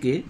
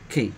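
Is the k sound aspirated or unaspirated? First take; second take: unaspirated; aspirated. First: The k is said without a puff of air. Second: The k is said with a puff of air. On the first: The speaker calls it wrong. "কিন্তু কে বলা যাবে না" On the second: The speaker calls it right. "এটা সঠিক উচ্চারণ হচ্ছে খে"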